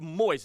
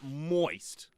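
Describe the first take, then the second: First: The vowel is said short and plain. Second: The vowel is dragged out and lengthened. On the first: The speaker calls it right. "It's just moist" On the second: The speaker calls it wrong. "not moist. The way you drag it out"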